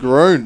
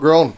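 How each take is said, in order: First: The vowel is a long 'oo' sound. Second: The vowel is a short 'o' sound. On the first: The speaker calls it right. "for the official pronunciation" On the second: The speaker calls it wrong. "not Gron"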